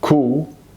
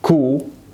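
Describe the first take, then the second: The two takes are said the same way.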